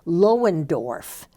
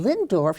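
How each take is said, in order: First: The name is said with three syllables. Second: The name is said with two syllables. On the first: The spelling was read letter by letter. The speaker calls it wrong. "he pronounced it Lohendorf" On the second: This is how the name is really pronounced. The speaker calls it right. "instead of saying Lindorf"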